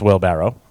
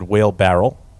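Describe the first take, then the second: First: The word ends with a 'barrow' sound. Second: The word ends with a 'barrel' sound. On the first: The speaker calls it right. "It's wheelbarrow" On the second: The speaker calls it wrong. "you said whale barrel. It's not"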